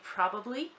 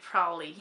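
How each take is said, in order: First: Every syllable of the word is said carefully. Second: The word is shortened with syllables run together. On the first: This is the careful pronunciation of the word alone. "if I would actually pronounce it, I would say probably" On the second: This is how it comes out in casual speech. "if I actually use it in a sentence, I'd say probably"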